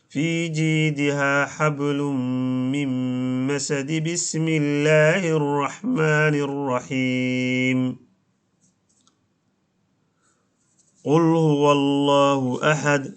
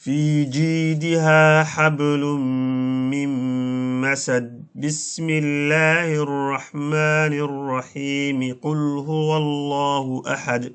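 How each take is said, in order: First: It runs on into the basmala, then pauses after it. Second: It runs straight through with no pause at all. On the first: The speaker calls it wrong. "وصل آخر السورة بالبسملة مع الوقف عليها" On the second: The speaker calls it right. "idan waa waslu ljamiic, dhammaan waad xiriirinaysaa"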